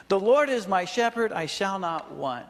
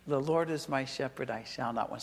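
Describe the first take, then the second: First: Loud, higher proclamation of the verse; proclaimed verse. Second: Softer and lower, savoring each word. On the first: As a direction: announce the verse with force, then settle. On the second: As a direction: let the verse sink in quietly. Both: Shown as a demonstration. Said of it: "It just feels good saying it".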